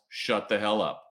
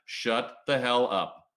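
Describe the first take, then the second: First: Said in the usual way. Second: Each word slow and heavy, "Shut the hell up" landing hard on every beat; slow emphatic repeat. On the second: Shown as a demonstration. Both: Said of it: "can I get an amen on that".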